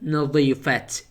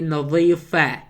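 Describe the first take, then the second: First: The word ends with a t sound. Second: The word ends without a t sound. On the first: The speaker calls it wrong. "not نظيفة. It's wrong" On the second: The speaker calls it right. "in feminine we say نظيفة"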